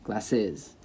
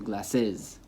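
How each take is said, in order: Both takes have the same delivery.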